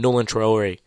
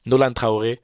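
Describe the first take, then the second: First: Nolan Traore said the American way, NOH-lan truh-OR-ee; anglicized Nolan Traore with an English R; American pronunciation. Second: Nolan Traore said the French way, no-LAN tra-o-RAY; French pronunciation. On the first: Hoops vlogger slips into saying the name the American way. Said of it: "saying it with an American accent". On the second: French vlogger corrects himself, says the name in French. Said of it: "like I'm not French". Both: Shown as a demonstration.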